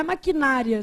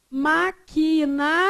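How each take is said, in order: First: MAQUINÁRIA stressed on NA; wrong stress. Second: MAQUINARIA slow, split up, stress on RI. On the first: Teacher shows the form to avoid, stress on NA. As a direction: run MAQUINÁRIA together with weight on NÁ. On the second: Teacher shows students where stress falls, stress on RI. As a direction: pause before the RIa of MAQUINARIA. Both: Shown as a demonstration. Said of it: "Não é maquinária".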